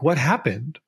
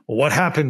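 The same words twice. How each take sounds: First: The question sounds gentle and caring. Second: The question sounds harsh and judgmental. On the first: The asker is curious and wants to understand. The speaker calls it right. "from a inquisitive and compassionate angle, not from a judgmental angle" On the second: The asker is blaming the other person. The speaker calls it wrong. "not like in the way that like we would ask it like"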